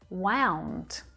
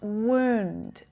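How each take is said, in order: First: The vowel is an ow diphthong. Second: The vowel is a long oo sound. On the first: The past tense of wind. "it's that diphthong sound. Ow" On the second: An injury to the skin. "it's pronounced wound with that long oo sound"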